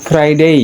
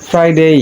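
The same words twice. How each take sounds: Both takes have the same delivery.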